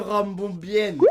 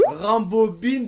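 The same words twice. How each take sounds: First: Rambobine fini en « bienne »; étirer la finale : Rambombienne; IN dit yen. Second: Said in the usual way. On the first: Shown as a demonstration. (« Rambombienne » à la québécoise) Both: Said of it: "Rambobine devient Rambombienne".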